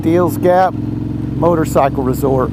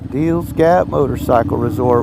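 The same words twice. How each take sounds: First: Drawn-out grand announcement, slow; slow announcer voice. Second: Low, softer, to himself; lower quieter repeat. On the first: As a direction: announce it like a big landmark. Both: Shown as a demonstration. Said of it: "World famous".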